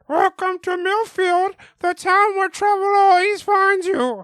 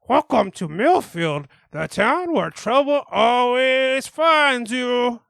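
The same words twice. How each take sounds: First: It is said in a higher voice. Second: It is said in a normal voice.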